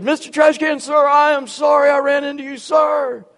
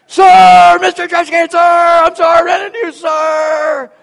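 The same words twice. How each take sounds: First: Loud, high dutiful apology; cadet's shouted apology. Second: Full-throated high bellow, even louder; yelled louder. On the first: Cadet apologizing to a trash can, loud dutiful shout. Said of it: "I don't think he heard you". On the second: Cadet made to repeat his apology, all-out yell. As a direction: yell it at the top of your lungs. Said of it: "yells it again". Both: Retold or imitated.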